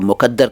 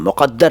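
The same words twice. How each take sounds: First: The middle consonant is a plain front k sound. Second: The middle consonant is a deep back q sound. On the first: It means impure or spiteful. The speaker calls it wrong. "इसको लोग मुक़द्दर कह देते हैं। मत कहिए" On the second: It means fate. The speaker calls it right. "मुक़द्दर है"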